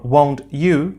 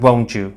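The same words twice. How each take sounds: First: The t and y sounds stay separate. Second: The t and y merge into a ch sound. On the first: "sequences like" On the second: "In fluent speech ... would be said"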